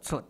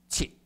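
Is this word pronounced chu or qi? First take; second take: chu; qi. First: The word is pronounced chu. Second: The word is pronounced qi. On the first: This is the modern reading. "那一个出" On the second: This is the ancient reading that rhymes. "就是要古音念七"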